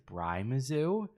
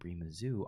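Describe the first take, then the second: First: The first syllable rhymes with 'Brian'. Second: The first syllable has an 'ee' vowel. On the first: "telling me it's Bry Mizzou?" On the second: "I was saying Bree Mizzou on my stream"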